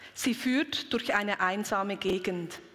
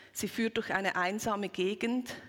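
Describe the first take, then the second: The two takes are said the same way.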